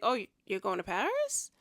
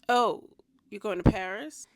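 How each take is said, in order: First: It sounds excited and curious. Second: It sounds unexcited and disapproving.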